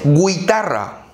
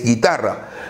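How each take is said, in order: First: A 'u' sound is heard after the g. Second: No 'u' sound is heard after the g. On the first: The speaker calls it wrong. "no es guitarra" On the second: The speaker calls it right. "La U no se pronuncia"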